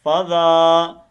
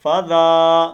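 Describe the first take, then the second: No difference in how they are said.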